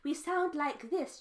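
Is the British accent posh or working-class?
posh. It is spoken in a posh upper-class accent. The speaker is wealthy. "And if we're posh"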